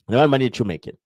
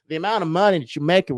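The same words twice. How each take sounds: First: It is said in the speaker's everyday accent. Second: It is said in an assumed, different accent. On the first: "I'm gonna say it again with my normal accent" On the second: "I'm gonna say with a different accent"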